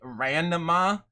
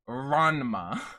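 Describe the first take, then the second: First: The first syllable sounds like English 'ran'. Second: The first syllable has a Japanese open 'a'. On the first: The speaker calls it wrong. "It is not the English word to run or to I ran" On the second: The speaker calls it right. "It is Ranma"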